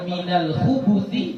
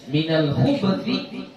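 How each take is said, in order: First: The b has no vowel after it. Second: The b is followed by a short u vowel. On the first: "boleh juga khub dengan sukun" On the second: "Ada khubu dengan dhammah"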